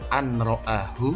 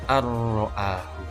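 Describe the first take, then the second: First: The n sound is pronounced before the r. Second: The n merges into the r without nasal hum.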